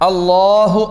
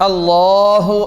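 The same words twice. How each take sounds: The two takes are said the same way.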